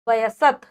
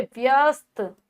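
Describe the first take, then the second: First: वयसत said as wa-ya-sat, every letter spoken; वयसत sounded out letter by letter with the vowel in; wrong spelling read out. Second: व्यस्त said with a tight vy cluster; व्यस्त, crisp with no extra vowel; correct pronunciation. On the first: Teacher reads the misspelt वयसत for her class, sounding out each letter. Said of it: "वयसत नहीं होता". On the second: Teacher gives the class the right व्यस्त, pronounced clearly. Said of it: "नहीं होता, क्या होता है". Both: Shown as a demonstration.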